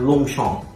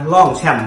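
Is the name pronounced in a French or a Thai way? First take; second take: French; Thai. First: It is said with French sounds. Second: It is said with Thai sounds and tones. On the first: The speaker calls it right. "มันอ่านว่าลงช่องเนาะครับ" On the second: The speaker calls it wrong. "มันบ่แม่นครับ"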